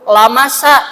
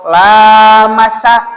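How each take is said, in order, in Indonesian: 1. Vokal pertama tetap pendek. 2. Vokal pertama dibaca panjang. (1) "pendek lamnya, menyentuh" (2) "saling menyentuh"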